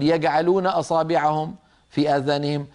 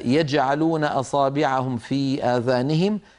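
First: The jeem is pronounced as a hard g. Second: The jeem is pronounced as a j sound. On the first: The speaker calls it wrong. "ما بيصح الواحد يقول" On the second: The speaker calls it right. "لابد أن ننطق الجيم كما رويت لنا"

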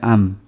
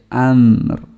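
First: The word ends without the final r sound. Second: The word ends with a light final r sound. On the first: The speaker calls it wrong. "tidak am" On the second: The speaker calls it right. "Tapi amr. Ada R-nya"

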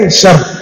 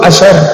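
First: The word begins directly with the 'sh' sound. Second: The word begins with a hamzah and 'a' sound. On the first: "dengan dibuang hamzahnya" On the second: "Yuqal asyar"

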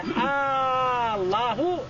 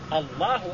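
First: The opening vowel is drawn out long. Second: The opening vowel is short. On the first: It becomes a question. The speaker calls it wrong. "ولو مد همزة الله لفظ الجلالة وقال الله نقول لا" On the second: It is a statement about God. The speaker calls it right. "لا بد أن يقول الله أكبر"

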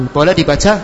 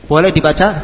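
The two takes are said the same way.

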